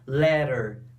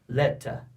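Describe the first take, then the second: First: The t sounds like a quick r. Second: The t is a crisp, strong t. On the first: "Os americanos pronunciam a letra T com som de R" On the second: "Para os britânicos, eles vão pronunciar a letra T como ela é"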